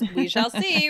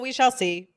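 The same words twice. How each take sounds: First: The phrase is said with a marked, knowing tune. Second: The phrase is said with a flat, plain tune. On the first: The speaker calls it right. "With that intonation too. It has to be" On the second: The speaker calls it wrong. "It cannot just be, oh"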